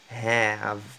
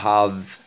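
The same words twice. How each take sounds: First: The vowel sounds like an 'e'. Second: The vowel sounds like a French 'a'. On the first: The speaker calls it right. "ça donne un son comme e" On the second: The speaker calls it wrong. "C'est pas have"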